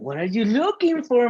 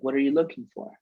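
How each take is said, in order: First: It is said in a lively, exaggerated tone. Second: It is said in a flat, plain tone. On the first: The speaker calls it right. "accompany it with your body language and your tonality" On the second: The speaker calls it wrong. "That's not funny"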